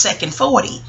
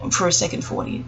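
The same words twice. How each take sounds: First: Said in the usual way. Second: Whispered aside, soft and breathy; whispered repetition to self. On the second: Shown as a demonstration. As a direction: hush it to yourself.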